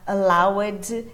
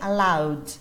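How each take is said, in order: First: The ending is an extra syllable. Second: The ending is only a D sound. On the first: The speaker calls it wrong. "você não vai falar allowed" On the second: The speaker calls it right. "e sim allowed"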